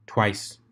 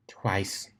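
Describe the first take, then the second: First: Said in the usual way. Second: Whispered under her breath; embarrassed little whisper; sheepish whisper. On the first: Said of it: "Twilight said flatly". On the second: Acted. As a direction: breathe it, caught out. Rarity sheepishly repeats to herself.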